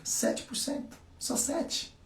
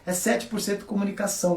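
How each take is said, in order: First: Whispered, pitched higher for emphasis; conspiratorial whisper; stage whisper. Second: Said in the usual way. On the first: Acted. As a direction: lean in and whisper the number like a secret. Stressing small figure to audience. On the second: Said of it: "O nosso neocórtex é o quê?".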